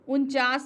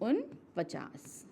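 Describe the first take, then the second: First: The middle 'pa' syllable is left out. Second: The middle 'pa' syllable is pronounced. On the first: The speaker calls it wrong. "उनचास भी बोलते हैं" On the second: The speaker calls it right. "सही उच्चारण उनपचास है"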